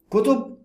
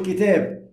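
First: The wrong answer كتب, said lightly higher; wrong plural form. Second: كتاب stressed as the right answer; correct singular form. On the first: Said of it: "مش هقول كتب". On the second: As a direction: say كتاب as the singular, kitab, with a firm falling close. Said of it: "مش هقول كتب، هقول كتاب". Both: Shown as a demonstration.

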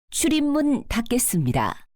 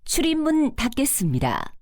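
No difference in how they are said.

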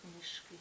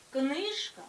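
First: Книжки with stress moved to final КИ; stress on ending. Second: Книжка with loud stress on КНИЖ; stem stress. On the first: Teacher showing the plural, книжки stressed on final КИ. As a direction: drop softer, stressing the last syllable of книжки. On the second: Teacher showing the singular, книжка stressed loudly on КНИЖ. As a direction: punch the first syllable of книжка. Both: Shown as a demonstration. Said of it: "наголос переходить у закінчення".

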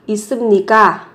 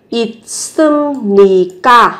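First: Now say 있습니까 at native speed; 있습니까 said quickly and smoothly; natural speed. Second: 있습니까 drawn out slowly, syllable by syllable, the 습 said as sɯm with an m before 니; 있습니까 said carefully as it-sɯm-ni-kka; slow pronunciation demo. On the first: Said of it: "Chú ý về cách phát âm". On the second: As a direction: model 있습니까 slowly so the m sound is heard. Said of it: "sẽ biến đổi thành mium, sẽ là thành âm M". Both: Shown as a demonstration.

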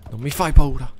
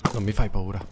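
First: Loud, higher defiant shout at the monster. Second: Said in the usual way. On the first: Real, not acted. Gamer facing a monster, loud defiant shout. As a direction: yell it to scare the monster off.

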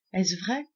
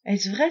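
First: «Est-ce vrai?» as a hushed first wonder; first ask. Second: «Est-ce vrai?» again, louder, vrai pushed up; Est-ce vrai louder and more eager; eager repeat. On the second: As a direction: press the question with rising hope. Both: A narrator's reading. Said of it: "s'écria-t-elle".

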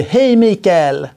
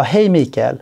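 First: Higher, slow drawn-out friendly hello; chummy greeting. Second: Said in the usual way. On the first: Retold or imitated. Salesman greeting Mikael, drawn-out and chummy. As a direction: stretch the name like an old pal. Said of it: "När någon säger".

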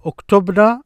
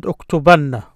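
First: "uktubna" with no vowel before a single n; "uktubna" rising, plain short na; no stress on ending. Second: "uktubanna" with stress on the doubled nn; "uktubanna" falling, nn held long; stressed ending. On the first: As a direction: say "uktubna" light and unstressed at the end. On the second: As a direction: lean on the nna of "uktubanna". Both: Shown as a demonstration. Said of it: "and the stress".

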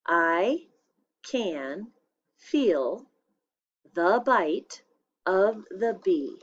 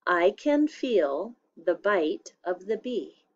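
First: I can feel the bite of the bee with a pause after each word. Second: Said in the usual way. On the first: Shown as a demonstration. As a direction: dictate it one word at a time. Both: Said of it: "I'll say it one more time".

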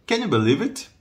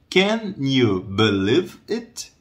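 First: Quick question with higher pitch; brisk, linked-up question; natural speed. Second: Very slow, word-by-word question; half-speed teaching pronunciation; slow model. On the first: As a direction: say it at conversational speed, pitch raised. Same phrase at natural speed. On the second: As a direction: spell it out slowly for learners. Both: Shown as a demonstration.

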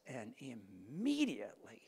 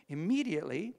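First: Hushed, breathless whisper of awe. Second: Loud, high, rising Immediately; preacher proclaiming the sudden healing; loud exclaim. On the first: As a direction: breathe the word like a secret. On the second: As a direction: ring it out in triumph. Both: Shown as a demonstration.

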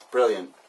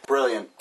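The two takes are said the same way.

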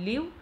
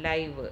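First: ലിവ് with a short i; ലിവ് as "liv", short vowel; verb pronunciation. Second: ലൈവ് with an "eye" glide; ലൈവ് as "lyve", long i; adjective pronunciation. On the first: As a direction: say ലിവ് to rhyme with "give". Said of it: "ലിവ് എന്ന് പറയുന്നു". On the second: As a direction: say ലൈവ് to rhyme with "five". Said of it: "ലൈവ് എന്ന് പറയുന്നത്". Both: Shown as a demonstration.

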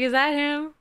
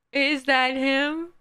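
First: High, excited question at normal pace. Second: High question, slowly stretched out; drawn-out question. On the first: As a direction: ask it quickly in raised, eager pitch. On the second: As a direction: draw the question out in raised pitch. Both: Retold or imitated. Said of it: "I was like".

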